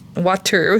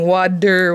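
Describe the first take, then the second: First: The T is said as a crisp T. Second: The T sounds like a soft D.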